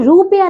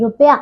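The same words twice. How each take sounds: First: रुपया said as "roopiya"; wrong long vowel. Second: रुपया said as "rupya"; correct short vowel. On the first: Teacher showing pupils the error, रुपया with long oo. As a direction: stretch the first vowel of रुपया. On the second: Teacher correcting pupils, रुपया with short u. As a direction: keep the first u of रुपया short. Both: Shown as a demonstration. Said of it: "रुपया नहीं".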